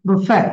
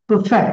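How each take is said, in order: The two takes are said the same way.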